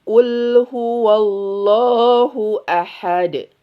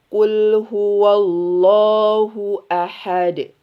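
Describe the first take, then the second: No difference in how they are said.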